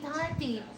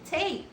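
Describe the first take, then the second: First: The name does not rhyme with 'state'. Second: The name rhymes with 'state'. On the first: The speaker calls it wrong. "my last name is not Tati" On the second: The speaker calls it right. "I just type the word state, drop the letter s"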